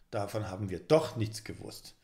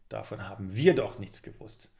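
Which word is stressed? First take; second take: doch; wir. First: The stress falls on the word doch. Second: The stress falls on the word wir.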